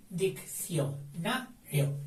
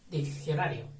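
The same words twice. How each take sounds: First: Diccionario drawn out, each syllable clear; slow syllables. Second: Said in the usual way. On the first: Shown as a demonstration. Teacher modelling the divided word for the class. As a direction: stretch Diccionario slowly, syllable by syllable. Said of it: "Cuatro sílabas, pero partidas así". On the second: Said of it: "whole word again".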